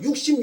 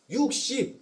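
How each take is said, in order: First: The word is said much more loudly. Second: The word is said fairly softly.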